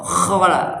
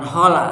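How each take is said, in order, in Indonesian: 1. Dimulai dengan bunyi kh yang serak. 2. Dimulai dengan bunyi h biasa. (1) "pakai kho khola" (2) "bukan khola"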